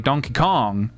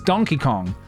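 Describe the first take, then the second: First: The emphasis falls on the word Kong. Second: The emphasis falls on the word Donkey. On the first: The speaker calls it wrong. "She used to put the emphasis on the Kong" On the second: The speaker calls it right. "dude, it's"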